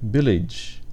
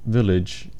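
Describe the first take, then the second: First: It is said with a Filipino accent. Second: It is said with a standard English accent. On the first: The speaker calls it right. "say village" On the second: The speaker calls it wrong. "instead of village"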